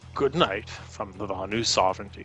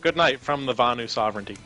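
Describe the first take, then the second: First: It is said in a put-on old man's voice. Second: It is said in a plain, natural voice. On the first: "I'll try and do the old man" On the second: "Seriously, though"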